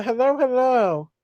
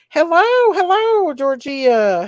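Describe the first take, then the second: First: Said in the usual way. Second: High, loud sing-song hello; excited greeting. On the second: Real, not acted. Greeting a viewer in chat.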